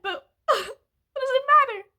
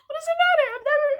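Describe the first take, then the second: First: Tearful question with a broken laugh; crying laugh. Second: Higher, louder tearful repeat; crying. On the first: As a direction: laugh through the tears, then slow down. Crying, laugh over credit score. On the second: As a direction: cry it out again, pitch higher. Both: Real, not acted.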